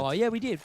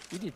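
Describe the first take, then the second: First: Bursts out loud and high, remembering; oh yeah, it suddenly comes back to you; sudden excited recall. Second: Said in the usual way. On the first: Real, not acted. Caster suddenly remembering the smoke execute, excited burst.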